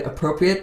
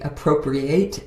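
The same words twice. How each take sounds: First: The word ends with a short 'it' sound. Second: The word ends with a long 'ate' sound. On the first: It means suitable or fitting. "I love the word appropriate" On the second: It means to steal. "if you say it differently"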